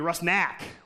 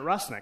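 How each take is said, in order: First: The last syllable has a hard 'ah' vowel. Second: The last syllable has a vowel other than 'ah'. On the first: This follows the spelling of the name. "with a hard ah sound" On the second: This is how the family says the name. "I pronounce it Rusnik, because that's what I was told"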